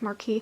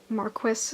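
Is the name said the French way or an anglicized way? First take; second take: French; anglicized. First: The name is said with a French pronunciation. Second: The name is said with a non-French pronunciation. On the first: This is the proper French way to say the name. The speaker calls it right. "instead of Marquis" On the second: This is how the game says the name. The speaker calls it wrong. "they say Marquis"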